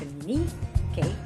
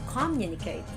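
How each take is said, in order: First: The stress is on the third syllable. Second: The stress is on the first syllable. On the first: "Not also on the third" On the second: "it's not communicate on the first syllable"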